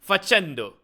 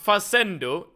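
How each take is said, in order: First: The c is said like ch. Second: The c is said like an s. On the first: The speaker calls it right. "The C here is like ch" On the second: The speaker calls it wrong. "instead of"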